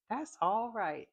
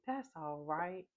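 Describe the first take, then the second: First: Louder, higher, pleased imitation of grandpa; proud grandpa. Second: Slow, mild imitation of an unbothered grandpa; grandpa shrugging it off. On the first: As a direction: mimic a grandpa cheering a good test grade. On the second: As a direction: lightly mimic a grandpa calmly waving away a broken leg. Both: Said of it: "he had different inflections for".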